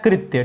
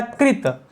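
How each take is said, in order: First: कृत्य with a y-glide after the t; सही उच्चारण कृत्य. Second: कृत with a plain final t, no y; सही उच्चारण कृत. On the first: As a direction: end कृत्य on a clear tya. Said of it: "दूसरा शब्द होता है कृत्य". (कृत्य, अंत में त्य का उच्चारण) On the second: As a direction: say कृत ending straight on the t. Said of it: "पहला शब्द होता है कृत". (कृत, बिना य के साफ़ उच्चारण) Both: Shown as a demonstration.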